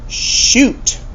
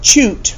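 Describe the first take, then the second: First: The word begins with a soft sh sound. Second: The word begins with a hard ch sound. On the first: The speaker calls it right. "you pronounce it shoot" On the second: The speaker calls it wrong. "not choot"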